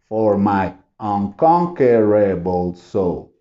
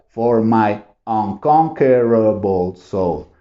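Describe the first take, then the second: The two takes are said the same way.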